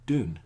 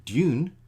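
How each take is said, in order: First: Dune without the glide, DOON; American U sound. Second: Dune with a y-glide, DYOON; loud, stressed Dune said as dyoon; non-American U sound. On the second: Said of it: "the sound U in American". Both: Shown as a demonstration.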